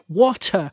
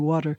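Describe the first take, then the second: First: It is said in a British English accent. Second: It is said in an American English accent.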